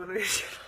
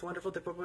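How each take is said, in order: First: Laughs through the word wonderful; wonderful said with a real laugh. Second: Said in the usual way. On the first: Real, not acted. Repeating wonderful to her audience with a laugh.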